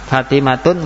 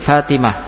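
First: The word ends with a full -tun ending. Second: The word ends with a soft h sound. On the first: The word is read in running speech. "Fatimatun menjadi Fatimah" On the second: The reader stops on this word. "wakafnya dengan ha"

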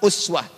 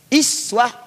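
First: The word begins with a u vowel. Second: The word begins with an i vowel. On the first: "Dikira hafaz dari Asim bisa dibaca uswah" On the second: "Dikira warash atau qalun dari Nafi' bisa dibaca iswah"

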